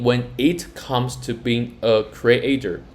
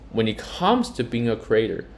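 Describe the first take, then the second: First: Each word is said clearly and separately. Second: The words run together with reduced, linked sounds. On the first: "Instead of saying" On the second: "she says"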